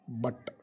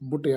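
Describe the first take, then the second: First: The vowel is the short 'uh' sound. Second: The vowel is the short 'oo' sound. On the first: The speaker calls it right. "The pronunciation of first word is but" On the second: The speaker calls it wrong. "B ಯು T ಬುಟ್ ಯಾಕಲ್ಲ"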